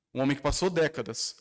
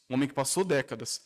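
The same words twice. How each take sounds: The two takes are said the same way.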